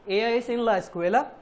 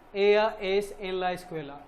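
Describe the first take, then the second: First: The voice rises at the end, a question. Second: The voice falls at the end, a statement.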